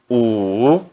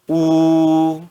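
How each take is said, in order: First: The pitch dips low, then rises. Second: The pitch stays high and level. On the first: "no terceiro tom" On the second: "no primeiro tom"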